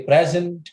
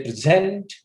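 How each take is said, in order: First: "present" as a noun, PREZ-ent; stress on first syllable. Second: "present" as a verb, pre-ZENT, louder on the end; stress on second syllable. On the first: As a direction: punch the "pres-" of "present". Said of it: "it becomes a noun". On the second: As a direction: punch the "-sent" of "present". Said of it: "use of this word as a verb". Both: Shown as a demonstration.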